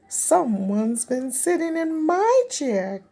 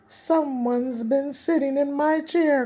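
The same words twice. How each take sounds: First: It is gasped breathily in Mama Bear's voice. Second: It is grumbled in Papa Bear's low voice.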